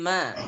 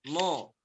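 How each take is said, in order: First: The syllable is light and thin. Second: The syllable is heavy and thick. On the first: The speaker calls it right. "ma-nya tipis" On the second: The speaker calls it wrong. "jangan ke bawah"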